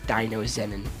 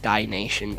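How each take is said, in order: First: The name is said with four syllables. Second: The name is said with three syllables. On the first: The speaker calls it right. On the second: The speaker calls it wrong.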